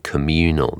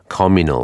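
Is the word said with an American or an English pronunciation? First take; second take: American; English. First: It is said with an American pronunciation. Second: It is said with an English pronunciation. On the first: "rather than communal" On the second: "I would say communal"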